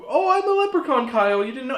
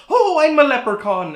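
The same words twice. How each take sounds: First: High squeaky leprechaun voice; a tiny leprechaun mom, voiced high and loud. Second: High, loud fake Irish leprechaun accent; hammed-up stage-Irish leprechaun, high and loud. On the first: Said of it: "she's, like, this big". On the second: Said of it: "literally doing, like, leprechaun voices".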